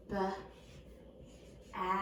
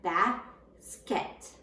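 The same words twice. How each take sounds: First: B-as-ket whispered slowly, each syllable pulled apart; sounded out by syllable. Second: Basket said slowly for dictation; slow, clear basket for spelling; slow dictation word. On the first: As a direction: break basket into b-as-ket, soft and unvoiced. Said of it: "so we have". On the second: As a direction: draw out basket so children can hear it. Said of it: "so we have basket". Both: Shown as a demonstration.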